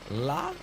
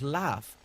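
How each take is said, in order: First: The word ends in a hard g sound. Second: The word ends in an f sound. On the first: The speaker calls it wrong. "I remember I'd be like log" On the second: The speaker calls it right. "no, it's laugh"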